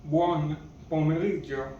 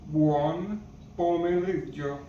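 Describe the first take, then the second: First: Said in the usual way. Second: Buon pomeriggio said slower, every syllable clear; slower repeat. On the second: Shown as a demonstration. Teacher repeating buon pomeriggio for learners, slowly. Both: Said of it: "Good afternoon in Italian is".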